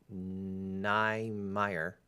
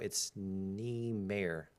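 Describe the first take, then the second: First: The ending is said like the name Mayer. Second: The ending is not said like Mayer. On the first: The speaker calls it wrong. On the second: The speaker calls it right.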